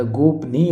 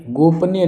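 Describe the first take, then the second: First: गोपनीय ending in long "nee"; correct pronunciation shown. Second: गोपनीय ending "ni-ya"; audible final a on गोपनीय; wrong pronunciation shown. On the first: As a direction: say गोपनीय slowly as "gop-neey". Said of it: "गोपनीय होता है". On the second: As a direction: say गोपनीय as "gop-nya", high. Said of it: "गोपनीय नहीं होता". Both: Shown as a demonstration.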